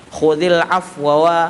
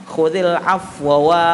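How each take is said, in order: No difference in how they are said.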